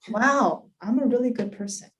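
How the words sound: It sounds heartfelt and sincere.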